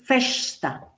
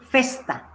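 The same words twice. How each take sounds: First: The s is pronounced as sh. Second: The s is pronounced as a hissing s. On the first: This is how it is said in Rio de Janeiro. "si es shianchi, voy a decir festa" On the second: This is the pronunciation used in other regions. "Y si es sibilanchi, voy a decir festa"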